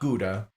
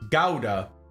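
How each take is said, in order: First: Gouda is pronounced the American way. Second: Gouda is pronounced the German way. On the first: This is how the speaker was used to saying it. The speaker calls it wrong. "Not Gouda" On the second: This is how the cheese's makers say it. The speaker calls it right. "Gouda is apparently the correct pronunciation"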